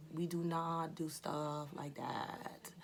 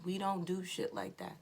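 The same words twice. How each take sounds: First: Every word spaced out and deliberate, slow; slow emphatic rephrase; slow, pointed correction. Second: Said in the usual way. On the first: Shown as a demonstration. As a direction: restate it cleanly, slowly and quietly.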